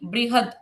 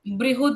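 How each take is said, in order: First: The second syllable has a short a vowel. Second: The second syllable has a u vowel. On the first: The speaker calls it right. "ह के साथ कोई मात्रा नहीं है यहाँ पर" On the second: The speaker calls it wrong. "बृहुद नहीं"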